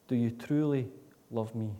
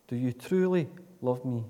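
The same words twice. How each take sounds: The two takes are said the same way.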